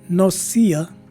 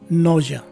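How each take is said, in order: First: The middle has an s sound and long e. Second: The middle has a zh sound, no long e. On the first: "the letter S stays as a regular S, and the letter E is also a long E" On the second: "the letter S takes a Z sound, the letter E is dropped and replaced with the letter H"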